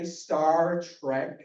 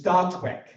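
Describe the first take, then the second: First: The R sounds are clearly pronounced in the words. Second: The R sounds are dropped from the words. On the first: This is the standard way to say it. "I couldn't say Star Trek" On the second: This is how the speaker said it as a child. "because that's how I pronounced it"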